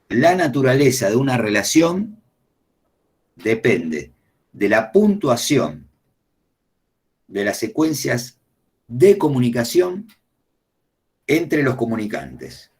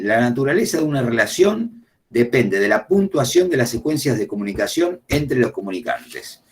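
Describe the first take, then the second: First: It is said slowly. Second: It is said fast.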